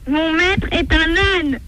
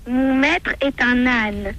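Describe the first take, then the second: First: It is said at its loudest. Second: It is said softly, in a small voice.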